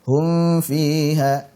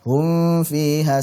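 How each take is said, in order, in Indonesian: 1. Bunyi m samar dan bersengau. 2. Bunyi m samar dan bersengau.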